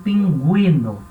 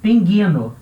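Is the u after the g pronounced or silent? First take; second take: pronounced; silent. First: The u after the g is pronounced. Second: The u after the g is silent. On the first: The word is read with the diaeresis. "como eu tenho a trema, aí eu sou obrigado a ler como pinguino" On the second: The word is read as if it had no diaeresis. "Se não tivesse trema, eu leria isso aqui como pinguino"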